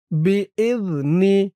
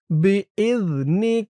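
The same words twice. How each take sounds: The two takes are said the same way.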